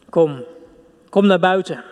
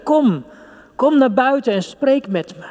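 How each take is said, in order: First: Said in the usual way. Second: Pitched higher, pleading call; God calling out. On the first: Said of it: "Ons gebed klinkt God als muziek". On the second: Acted. God calling his beloved to come out and speak, higher and pleading. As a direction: voice God inviting you out, higher and urgent. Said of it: "hij hangt in onze lippen en zegt".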